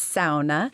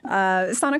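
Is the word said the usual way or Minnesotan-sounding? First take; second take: Minnesotan-sounding; usual. First: It is said in a Minnesotan-sounding way. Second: It is said in the usual everyday way.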